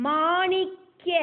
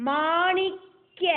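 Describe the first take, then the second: No difference in how they are said.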